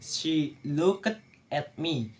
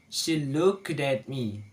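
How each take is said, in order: First: Looked and at are said as separate words. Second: Looked runs straight into at without a break. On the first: The speaker calls it wrong. "In the writing" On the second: The speaker calls it right. "so the right sound is"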